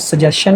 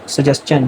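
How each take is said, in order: First: The ending is pronounced with a 'shun' sound. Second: The ending is pronounced with a 'chun' sound. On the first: The speaker calls it wrong. "ये सजेशन नहीं बनेगा। Mostly लोग इसको गलत pronounce करते हैं।" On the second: The speaker calls it right. "यह सजेस्चन बनेगा"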